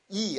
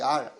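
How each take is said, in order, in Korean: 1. 이 음절은 그냥 'ee' 모음 소리예요. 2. 이 음절은 r이 있는 'ar'과 비슷한 소리예요. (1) "이라고 읽으면 안 돼요" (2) "원래는 R로 읽는 거예요"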